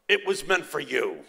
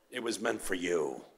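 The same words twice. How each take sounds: First: Imitated Italian father, reassuring her; Italian accent. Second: Put-on low, soft, tender Italian accent. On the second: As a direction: imitate an Italian father reassuring softly. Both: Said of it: "he said in his Italian accent".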